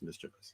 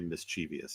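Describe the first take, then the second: First: The word is said with three syllables. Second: The word is said with four syllables. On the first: The speaker calls it right. "it's mischievous" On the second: The speaker calls it wrong. "ninety-nine percent of people say mischievous"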